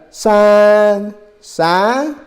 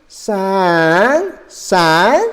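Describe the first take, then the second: Both takes have the same delivery.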